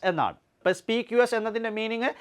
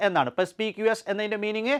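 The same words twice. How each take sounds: The two takes are said the same way.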